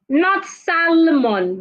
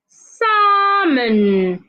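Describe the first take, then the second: First: The L sound is pronounced. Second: The L sound is silent. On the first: The speaker calls it wrong. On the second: The speaker calls it right. "The L is not, should not be heard"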